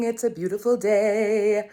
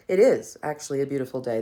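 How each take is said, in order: First: Sung, lilting, louder singsong over the music; sung, singsong greeting. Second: "is" hit firmly with a falling tune, quick pace; stress on is. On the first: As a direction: sing it out like a cheery morning hello. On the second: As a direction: insist the day really is beautiful by punching "is". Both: Shown as a demonstration.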